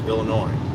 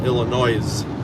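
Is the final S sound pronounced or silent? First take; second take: silent; pronounced. First: The final S sound is silent. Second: The final S sound is pronounced. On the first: The speaker calls it right. "The S is silent there too. It's Illinois" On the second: The speaker calls it wrong. "It's not Illinois"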